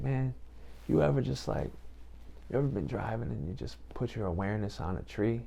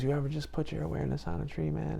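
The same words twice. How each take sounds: First: Laid-back cool dude. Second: Lightly voiced cool dude, higher and fast; laid-back cool dude. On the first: Retold or imitated. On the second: Quoting the friend on the phone, a hint of easygoing dude. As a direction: rattle it off like a mellow buddy, pitched up. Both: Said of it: "he talks like that".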